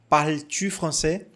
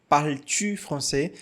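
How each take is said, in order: Both takes have the same delivery.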